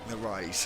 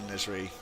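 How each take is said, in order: First: The name is said as Narise. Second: The name is said as Nazari. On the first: The speaker calls it right. "I think that's better" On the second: The speaker calls it wrong. "but that's not right"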